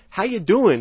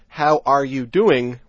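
First: The word 'are' is dropped from the phrase. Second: Every word is said in full, including 'are'. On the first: It sounds casual and typical. The speaker calls it right. "is how we typically say it" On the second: It sounds formal. The speaker calls it wrong. "to say it that way, ... would sound too formal"

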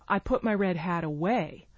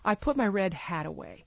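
First: The stress falls on the word away. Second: The stress falls on the word hat. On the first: It answers what was done with the hat. "Or where did you put your red hat" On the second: It answers what was put away. "hat is the last content word of the sentence"

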